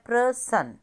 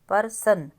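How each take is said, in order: First: The word begins with a blended 'pra' sound. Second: The word begins with a full 'par' sound. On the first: The speaker calls it right. "अब यहाँ पे हमारे sound क्या है" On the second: The speaker calls it wrong. "अब ये जो गलत वाला लिखा है"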